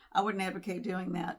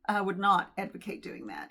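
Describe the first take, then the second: First: 'Not' is contracted onto 'would'. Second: 'Not' is said as a separate, clear word. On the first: The speaker calls it wrong. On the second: The speaker calls it right.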